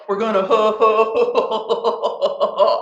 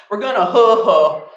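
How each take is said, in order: First: "ho ho" drawn out very slowly and dissolving into laughter; laughing through it. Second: Said in the usual way. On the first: Shown as a demonstration. Teacher slows the ho ho chant into laughter. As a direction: let the laugh take over the ho ho, slowly.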